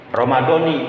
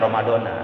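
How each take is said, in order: First: The word ends with an 'ee' vowel. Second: The word ends with an 'ah' vowel. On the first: It is the form for each day's intention. The speaker calls it right. "Kalau yang untuk tiap hari Ramadhani" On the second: It is the form for the whole month's intention. The speaker calls it wrong. "jangan Ramadona"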